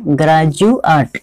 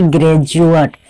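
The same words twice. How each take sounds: First: Slow ग्रेजुएट as graa-ju-at; drawn-out ग्रेजुएट with open a vowels; correct pronunciation. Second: ग्रेजुएट as gre-ju-at, first vowel e; wrong pronunciation. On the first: Teacher repeats the right ग्रेजुएट slowly, graa-ju-at. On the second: Teacher names the wrong form, ग्रेजुएट said gre-ju-at. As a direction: say ग्रेजुएट with gre at the start, the mistake. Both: Shown as a demonstration. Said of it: "ना कि ग्रेजुएट".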